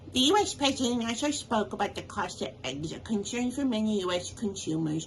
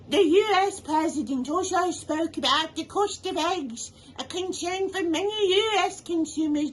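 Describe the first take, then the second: First: It is read in the speaker's regular accent. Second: It is read in a put-on British accent. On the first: "maybe just use your regular voice" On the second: "I'm going to read this one in a British accent"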